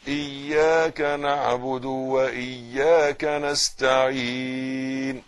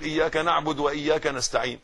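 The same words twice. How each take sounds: First: إياك with a doubled ya, x0.7 slow; إياك drawn out, ya held with shadda; correct pronunciation. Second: إياك said without its shadda, the ya light; إياك rushed, ya not doubled; wrong pronunciation. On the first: Teacher showing the right shadda so students repeat. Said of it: "قول ورايا". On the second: Teacher mimicking what many people get wrong in إياك. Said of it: "غلط". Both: Shown as a demonstration.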